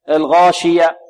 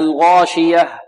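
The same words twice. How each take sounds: First: The final h sound is faint and hidden. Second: The final h sound is clearly pronounced. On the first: The speaker calls it wrong. "لا نقف عليها كما يقف البعض" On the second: The speaker calls it right. "فلابد من إيضاحها"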